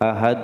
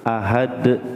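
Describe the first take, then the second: First: The final d has no bounce at all. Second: The final d bounces quickly and directly. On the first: The speaker calls it wrong. "tidak ada pantulannya" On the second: The speaker calls it right. "langsung ya"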